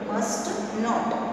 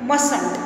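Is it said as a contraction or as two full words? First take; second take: full words; contraction. First: It is said as two separate full words. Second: It is said as one contracted word. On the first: "full form में हम इसको क्या पढ़ेंगे" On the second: "short form में पढ़ेंगे मसंट"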